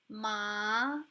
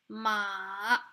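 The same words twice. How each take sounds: First: The pitch rises upward. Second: The pitch dips down, then rises. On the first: It means numbness. "The rising tone" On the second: It means horse. "it kind of goes downwards and upwards again"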